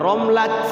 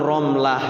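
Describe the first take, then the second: First: The word ends with a t sound. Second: The word ends with a soft h sound. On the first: It would be a man's name. The speaker calls it wrong. "Kalau romlat nanti laki-laki dong namanya romlat" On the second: It is a woman's name. The speaker calls it right. "Ya, enggak romlat"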